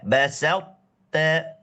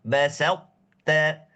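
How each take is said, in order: The two takes are said the same way.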